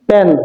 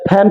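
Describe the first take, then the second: First: The first p sound is unaspirated. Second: The first p sound is aspirated. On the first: The speaker calls it wrong. "এটা সম্পূর্ণ ভুল উচ্চারণ" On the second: The speaker calls it right. "এগুলো হচ্ছে কি correct pronunciation"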